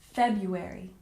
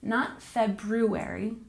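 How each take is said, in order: First: The first R sound is left out. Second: The first R sound is pronounced. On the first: The speaker calls it right. "we don't say the first one. We pronounce it like February" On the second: The speaker calls it wrong.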